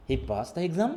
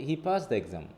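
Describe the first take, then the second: First: EXAM rising at the end as a question; rising question tune. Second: EXAM falling, stated as fact; falling statement tune. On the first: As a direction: ask it by lifting "exam". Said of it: "rising টোনটা হচ্ছে আমাদের". ("exam"-এ সুর তুলে প্রশ্ন) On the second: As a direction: let the pitch drop on "exam". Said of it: "এটা হচ্ছে statement". ("exam"-এ সুর নামিয়ে বিবৃতি) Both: Shown as a demonstration.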